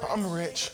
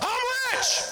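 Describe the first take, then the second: First: The phrase is said at a normal, quiet volume. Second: The phrase is yelled loudly with high energy. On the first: "people be like" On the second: "Other people yell"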